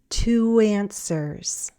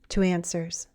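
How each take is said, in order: First: The phrase is said slowly. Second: The phrase is said faster. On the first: "first slowly" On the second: "and then faster"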